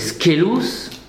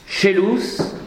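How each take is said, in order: First: The word begins with a hard sk sound. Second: The word begins with a soft sh-like sound.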